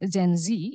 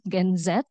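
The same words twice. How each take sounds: First: It is said with an American accent. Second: It is said with a British accent.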